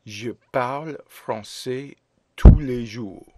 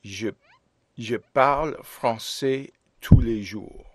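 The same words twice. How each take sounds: First: Je parle français tous les jours again, tous punched loud; teacher repeats slowly so the class can say it after; slow repeat for students. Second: Je parle français tous les jours read clearly, stress on parle; teacher reads the model sentence for students to repeat; model French sentence. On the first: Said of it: "Répétez". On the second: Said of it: "teacher models sentence". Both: Shown as a demonstration.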